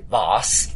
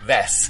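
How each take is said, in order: First: It is said with a British accent. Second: It is said with an American accent.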